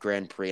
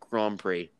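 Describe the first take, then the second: First: Grand Prix is said the American way. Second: Grand Prix is said the French way. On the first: The speaker calls it wrong. "My daddy even pronounces it Grand Prix" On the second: The speaker calls it right. "nope, Grand Prix"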